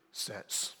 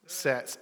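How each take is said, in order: First: Mock hushed whisper; Josh. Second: Said in the usual way. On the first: Preacher imitating how it was said earlier, whispered. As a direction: whisper it as if it mustn't be said. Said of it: "that's how he said it earlier".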